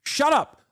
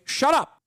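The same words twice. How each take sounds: First: High, exasperated "shut up" again; same annoyed command. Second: High, exasperated "shut up"; pitched-up annoyed command. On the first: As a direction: repeat it with the same frustration. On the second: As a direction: snap it out in frustration. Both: Real, not acted. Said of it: "shut the f-, up, okay".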